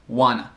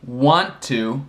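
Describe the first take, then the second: First: The words are blended into 'wanna'. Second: Both words are said fully and separately. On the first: "se tornou wanna" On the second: "want to se tornou wanna"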